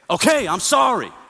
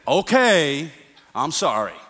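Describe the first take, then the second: First: The apology sounds harsh and forceful. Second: The apology sounds mocking and insincere. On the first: The speaker is angry while apologizing. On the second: The speaker does not really mean the apology.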